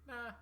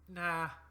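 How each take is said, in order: First: It is said fainter, as if farther away. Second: It is said louder, as if nearer. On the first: "This time now a bit more fainter and perhaps even further out" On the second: "And it calls back"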